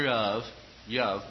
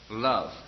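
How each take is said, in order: First: The word starts with a Y-like sound. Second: The word starts with a crisp L sound. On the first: The speaker calls it wrong. "Not in all your yov" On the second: The speaker calls it right. "Clean, crisp L sound, energized V sound"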